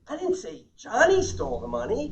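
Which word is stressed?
Johnny. The stress is on Johnny.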